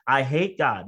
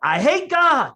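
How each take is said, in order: First: Said in the usual way. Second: Loud, high-pitched retold shout; blurted outburst. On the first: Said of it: "That was what I said". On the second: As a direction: let it burst out far higher and louder, acting it out. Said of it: "It came out more like".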